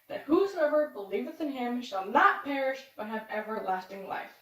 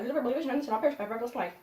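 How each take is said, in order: First: It is recited at an ordinary, unhurried pace. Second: It is recited extremely quickly in one rush.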